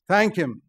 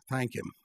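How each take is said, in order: First: Loud. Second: Soft, low Thank him, said almost under the breath; quiet. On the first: Preacher urging the church to thank the provoker, loudly. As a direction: Thank him called out loud and high. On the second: Preacher telling the church to thank the provoker, quietly. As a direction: let Thank him drop softly. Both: Shown as a demonstration.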